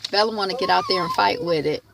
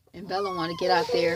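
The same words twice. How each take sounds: First: The same line again, louder and shouted; raised, shouted repeat; half shouted remark. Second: Said in the usual way. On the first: Real, not acted. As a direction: call it out over the barking.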